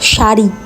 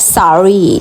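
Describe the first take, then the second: First: The word begins with an sh sound. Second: The word begins with a plain s sound. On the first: The speaker calls it right. "It is শাড়ি" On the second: The speaker calls it wrong. "ওরা শাড়ি বলতে পারে না, ওদের বলতে হয় সারি"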